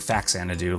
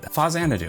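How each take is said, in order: First: The middle consonant is a 'ks' sound. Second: The middle consonant is a 'z' sound. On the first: This is how many kids said it growing up. "I grew up saying Faxanadu, like I think a lot of kids did" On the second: This follows the name it was built from. "but Phazanadu apparently"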